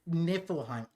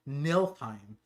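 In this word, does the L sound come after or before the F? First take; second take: after; before. First: The L sound comes after the F. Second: The L sound comes before the F. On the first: The speaker calls it right. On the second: The speaker calls it wrong.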